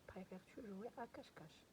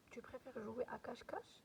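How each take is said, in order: First: Said in the usual way. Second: "cache-cache" lifted in a rising tune at the end; rising question tune. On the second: Shown as a demonstration. Teacher shows pupils a question by rising intonation alone. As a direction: let the voice climb on "jouer à cache-cache" to make it a question. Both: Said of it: "seulement بدلنا la tonalité ديال la voix".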